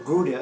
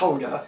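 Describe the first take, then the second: First: It is said the American way. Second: It is said the Dutch way.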